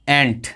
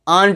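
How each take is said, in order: First: The vowel is the short a sound. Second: The vowel is drawn out and long. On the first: The speaker calls it right. "ए एंट, एंट कहते ना" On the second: The speaker calls it wrong. "आंट नहीं कहते"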